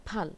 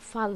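First: ফাল with the ফ pushed out hard, both lips together; ফাল with a strong ph. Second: Said in the usual way. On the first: Shown as a demonstration. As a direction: start ফাল with a forceful lip-closed ফ. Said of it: "ফতে একটু জোর দিয়ে বলতে হবে". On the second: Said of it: "ফাল না".

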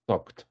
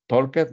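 First: Talked in one syllable ending in a short t sound, tɔkt; talked clipped to one beat with a final t; correct pronunciation. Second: Talked said as two syllables, talk-ed, with a spoken e before the d; Talked with an extra vowel, tɔlkɛt; wrong pronunciation. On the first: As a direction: say talked as talkt, no extra vowel. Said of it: "talked, ¿ok?". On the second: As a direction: sound out Talked as talk-ed, the mistake to avoid. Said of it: "Talked, no". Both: Shown as a demonstration.

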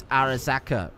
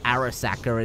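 First: "Arasaka" with a Japanese-style R; corrected Arasaka. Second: "Arasaka" with an English R; mispronounced Arasaka. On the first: Quoting a viewer's correction, "Arasaka" with a Japanese-style R. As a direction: say "Arasaka" with a Japanese R, not an English one. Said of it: "it's not an R, is it?". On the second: Quoting a viewer's correction, "Arasaka" with the wrong English R. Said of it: "you're saying Arasaka wrong". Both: Retold or imitated.

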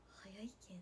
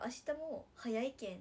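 First: Low, soft Kansai-leaning lilt on Nagasaki dialect; slipped Kansai-tinged intonation. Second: Nagasaki dialect, said out firmly; usual Nagasaki intonation. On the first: Idol repeats her slip to viewers, Kansai-tinged intonation. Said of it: "って言った". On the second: Idol shows viewers her usual Nagasaki dialect intonation. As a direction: demonstrate the normal Nagasaki tune. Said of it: "いつもやったら". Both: Shown as a demonstration.

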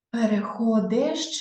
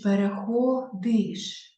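First: "Переходиш" drawn out as переходЕш; е instead of и. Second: "переходиш" drawn out with final иш; clear и vowel. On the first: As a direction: slowly put an open е in the ending of "Переходиш". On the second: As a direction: slowly sound the и in the ending of "переходиш". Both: Shown as a demonstration. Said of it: "Ми напишемо «і»".

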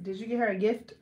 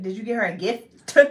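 First: "gift" with an everyday light final T. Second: "gift" with a separate, popped final T; over-pronounced T. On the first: Testing herself in a question, "gift" with light T. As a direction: end "gift" on a light, unforced T. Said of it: "I say gift with a T". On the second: Showing that it is too much, "gift" with exaggerated T. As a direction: overdo the T at the end of "gift". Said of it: "I try to say the T". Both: Shown as a demonstration.

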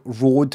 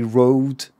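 First: "road" with a pure Scottish o; Scottish vowel. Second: "road" with an English gliding o; anglicised vowel. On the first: Streamer contrasting everyday speech with ad speech, Scottish "road". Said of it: "Scottish accent, but with words like". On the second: Streamer mocking radio-advert speech, anglicised "road". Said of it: "it would be". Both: Shown as a demonstration.

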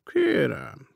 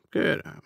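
First: "Kérem" murmured with a touch of mockery; a lightly mocking, soothing "Kérem"; mocking reassurance. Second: Second "kérem" a bit higher, still mildly mocking; mocking reassurance. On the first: Dead man soothes the startled millionaire, "Kérem" lightly mocking. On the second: Dead man soothes the startled millionaire, "kérem" higher and mocking. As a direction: repeat "kérem" lightly higher and dismissive. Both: A narrator's reading. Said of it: "gúnyos megnyugtatással dünnyögte".

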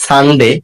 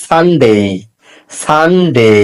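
First: "সানডে" with short final "de"; mispronounced Sunday. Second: "সানডে" drawn out as "SAN-dey"; correct Sunday. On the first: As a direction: say "সানডে" the common clipped way, "san-de". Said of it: "এটা সানডে হবে না". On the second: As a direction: model "সানডে" with a long gliding ending. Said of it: "এটা হবে". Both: Shown as a demonstration.

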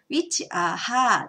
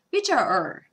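First: "which are her" with the h fully sounded; wrong way. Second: "which are er" with the h dropped, linked smoothly; right way. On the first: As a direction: pronounce "her" with a clear h, the mistake. (hを発音した「which are her」の悪い例) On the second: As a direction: drop the h and run "are er" together. (hを落として「which are er」とつなげる) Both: Shown as a demonstration. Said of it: "って言ったらダメですよね".

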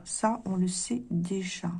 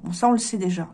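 First: Repeated softly and slowly to herself; quiet slow self-confirmation; soft aside. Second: Said in the usual way. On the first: Shown as a demonstration. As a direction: murmur it again under the breath.

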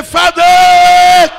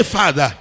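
First: Father yelled much higher and louder; louder call. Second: Loud call. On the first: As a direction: throw Father out with full force. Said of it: "Can you raise it louder and say". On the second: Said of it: "Can you raise your voice and say". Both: Shown as a demonstration.

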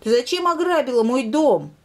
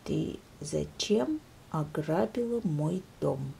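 First: High, loud cub voice accusing the lynx; indignant demand. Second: Soft, low, slow question; very quietly. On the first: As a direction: demand an answer from the thief. Bear cub confronts the lynx. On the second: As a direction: ask it almost under your breath. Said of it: "очень тихо спросил медвежонок". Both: Acted.

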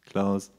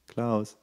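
The two takes are said the same way.

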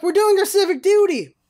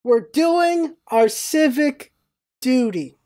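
First: Higher-pitched, mock-righteous comeback; indignant retort. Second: Slow, word-by-word echo with pauses; slow disbelieving repeat. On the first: Pedestrians answering yelling bystander, imitated indignant retort. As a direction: fire it back as self-justified pedestrians. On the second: Retold or imitated. Bystander replaying pedestrians' answer, slow and disbelieving. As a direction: draw it out, letting the absurdity sink in.

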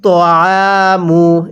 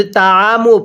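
First: তআমু with a short ত, slowly drawn; correct reading. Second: তাআমু with a long তা, the mistake to avoid; wrong reading. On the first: Teacher gives the correct pronunciation, slow careful chant. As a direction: recite তআমু keeping the ত short. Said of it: "তাহলে কিভাবে পড়ব?". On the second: Teacher mimics the common error, wrong long vowel. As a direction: say তাআমু with the stretched তা learners wrongly use. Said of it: "তকে তা পড়া যাবে না।". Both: Shown as a demonstration.

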